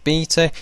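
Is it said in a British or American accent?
British. It is said in a British accent.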